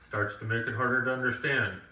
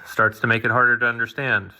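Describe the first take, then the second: First: Distant voice with lots of room echo. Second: Close voice with little room echo. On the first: The speaker calls it wrong. "as I get back across here" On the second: The speaker calls it right. "If I got closer, I'll do that same thing"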